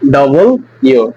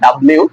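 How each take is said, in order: First: It is said as two clear separate parts. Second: It is squeezed into one blurred word. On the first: The speaker calls it right. "এটা হবে ডবল ইউ" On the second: The speaker calls it wrong. "আমরা যেটাকে বলি ডাব্লিউ"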